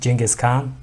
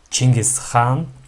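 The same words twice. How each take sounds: First: The name is said with a foreign English pronunciation. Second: The name is said with a native Mongolian pronunciation. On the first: This is how outsiders say the name. "a lot of foreigners uh, pronounce uh, the name" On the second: This is how locals say the name. "in Mongolia we pronounce it"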